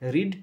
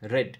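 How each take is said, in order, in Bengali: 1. স্বরধ্বনিটি দীর্ঘ, 'reed' শব্দের মতো। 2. স্বরধ্বনিটি হ্রস্ব, 'red' শব্দের মতো। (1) "রিডের তিনটে ফর্মই এক" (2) "শুধু ভি টু আর ভি থ্রি এর উচ্চারণ আলাদা"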